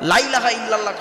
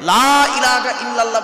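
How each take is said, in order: First: The vowel of the first word is clipped short. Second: The vowel of the first word is drawn out. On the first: Surely there is a god besides Allah. The speaker calls it wrong. "খবরদার বলবেন না" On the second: There is no god except Allah. The speaker calls it right. "লামে টান দেবেন, লা ইলাহা ইল্লাল্লাহ বলবেন"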